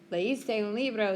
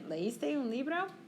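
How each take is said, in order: First: The pitch falls at the end. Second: The pitch rises at the end. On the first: It states that the listener read a book. "You just change the intonation of your voice" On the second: It asks whether the listener read a book. "Did you read a book?"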